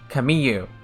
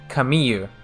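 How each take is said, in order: First: The name is said with a y sound. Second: The same.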